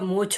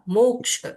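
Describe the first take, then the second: First: The final consonant sounds like chh. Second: The final consonant sounds like ksh. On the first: The speaker calls it wrong. "छतरी वाला छ, मोक्ष नहीं होगा" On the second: The speaker calls it right. "क और श मिला के होता है"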